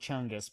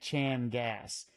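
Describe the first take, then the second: First: The word sounds like chung-us. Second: The word sounds like chan-gas. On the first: The speaker calls it wrong. "we prefer Chungus because it's it just rolls off the tongue better" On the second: The speaker calls it right. "Jay told us to say it right"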